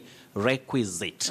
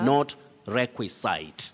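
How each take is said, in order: First: The ending sounds like zit. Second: The ending sounds like site. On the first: The speaker calls it right. "we also say requisite" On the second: The speaker calls it wrong.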